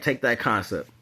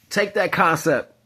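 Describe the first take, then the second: First: Said in the usual way. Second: "take that concept" slow with "that" punched high; emphatic. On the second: Shown as a demonstration. Driving his point home to listeners, "that" stressed slow and high. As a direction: lean hard on "that" in "take that concept".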